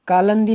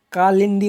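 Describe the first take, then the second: First: कालंदी with "lan" in the middle; wrong form. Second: कालिंदी with "lin" in the middle; correct form. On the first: Teacher rejecting the wrong word, कालंदी with an a vowel. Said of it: "कालंदी नहीं होता है". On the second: Teacher giving the correct word, कालिंदी with an i vowel. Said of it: "कालिंदी होता है". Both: Shown as a demonstration.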